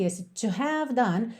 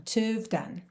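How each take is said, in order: First: "to have done" with a full H in "have"; H sounded. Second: "to have done" with "have" reduced to "v"; contracted have. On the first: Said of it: "é o que acontece aqui". ("have" com o H pronunciado) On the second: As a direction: drop the H, "to've done". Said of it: "um have que tá contraído aí". ("have" reduzido a "v") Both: Shown as a demonstration.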